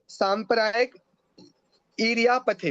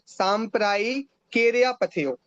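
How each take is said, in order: First: The words are said separately, without joining sounds. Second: The words are run together with sounds joined. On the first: "सांप्रदायिक ईर्यापथ्य हो जाएगा" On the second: "साथ में पढ़ेंगे तो ऐसा पढ़ेंगे"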